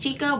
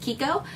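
First: The name is read the way the spelling suggests. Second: The name is said unlike the spelling suggests. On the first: The speaker calls it wrong. "It looks like it says Chicco" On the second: The speaker calls it right. "the actual correct pronunciation is Chicco"

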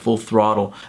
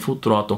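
First: The name is said with English sounds. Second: The name is said with Portuguese-style sounds. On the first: The speaker calls it right. "a pronúncia correta" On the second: The speaker calls it wrong. "Como eu pronunciava quando criança"

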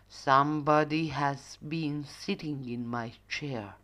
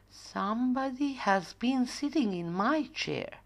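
First: The voice is loud, deep and growly. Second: The voice is quiet, soft and gentle. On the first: The father bear is speaking. "roared with a growly voice" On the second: The mother bear is speaking. "said in a quiet, gentle voice"

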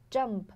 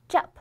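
First: The m sound is clearly held with nasal resonance. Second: The m sound is skipped over without nasal resonance. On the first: The speaker calls it right. "你一定要有那个鼻音感" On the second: The speaker calls it wrong. "如果说你冒过去了，就变成了"

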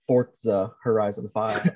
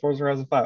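First: Forza is said with a T sound, like fort-sa. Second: Forza is said without a T sound, like for-za. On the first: This is how annoying people online say it. "as some people who bug the shit out of me on the internet call it" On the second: This is how the speaker insists on saying it. "I refuse to believe that that's the correct pronunciation"

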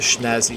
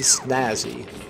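First: The word begins with a 'sh' sound. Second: The word begins with a plain 's' sound. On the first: The speaker calls it wrong. "I shouldn't say schnazzy" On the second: The speaker calls it right. "snazzy. Completely different"

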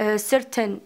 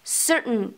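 First: The t is fully released. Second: The t is a glottal stop. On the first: The speaker calls it wrong. "بعض البنات ممكن تنطقها certain او certain وانما هي غلط" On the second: The speaker calls it right. "فبالتالي نطقها كيف؟"

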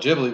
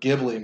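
First: It begins with a soft j sound. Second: It begins with a hard g sound. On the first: This is the officially correct name. "that's what they apparently are actually called" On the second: This is how the speaker has always said it. "I always do the hard guh"

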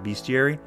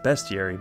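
First: The first syllable sounds like the word beast. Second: The first syllable does not sound like beast. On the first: It is the speaker's habitual personal pronunciation. "I've always pronounced it bestiary, because, you know, it's the book of beasts" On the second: It is the technically correct pronunciation. "it's technically pronounced bestiary"

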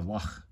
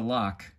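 First: The final sound is a throaty fricative. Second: The final sound is not a throaty fricative. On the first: The speaker calls it right. "like you might hear in German or Hebrew" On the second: The speaker calls it wrong. "It's not the Loch"

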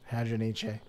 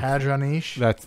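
First: The final e is pronounced as a syllable. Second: The final e is silent, French-sounding. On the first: The speaker calls it right. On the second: The speaker calls it wrong.

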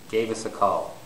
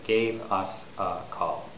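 First: The words run together with linking. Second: The words are said separately, without linking. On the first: The speaker calls it right. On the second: The speaker calls it wrong.

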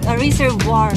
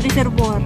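First: It is said in an American accent. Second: It is said in a Filipino accent. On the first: "sa American accent" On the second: "So sa Pilipino"

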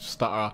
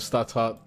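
First: The T in the middle is dropped. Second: The T in the middle is clearly pronounced. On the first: This is how a Londoner says it. "We don't really pronounce T's with my accent" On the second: This is how Americans would say it. "that's how, you know, Americans will probably say it"

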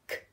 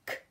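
The two takes are said the same way.

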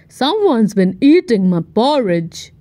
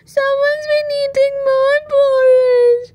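First: It is growled in Daddy Bear's voice. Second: It is cried in Baby Bear's voice.

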